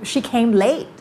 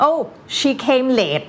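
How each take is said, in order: First: Higher-pitched, "late" lifted at the end; non-Thai tone. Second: Higher-pitched English with Thai falling tone on "late"; Thai accent. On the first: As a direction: say "late" with a rise, avoiding the Thai fall. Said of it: "อะไรก็ได้ที่ไม่ใช่ late". (เปลี่ยนโทน "late" ให้ไม่เป็นเสียงไทย) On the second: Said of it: "นี่มันเป็นภาษาไทย". (พูด "late" สำเนียงไทย) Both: Shown as a demonstration.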